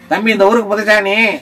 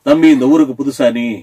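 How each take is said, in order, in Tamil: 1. இது பலவீனமான, பலமில்லாத குரலில் சொல்லப்படுகிறது. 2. இது வலுவான, வீரமான குரலில் சொல்லப்படுகிறது. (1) "ஆனா குரல் கடவுள் பிடிங்கிருப்பான்" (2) "ஆனா அவன் ஹீரோ வாய்ஸா இருக்கும்"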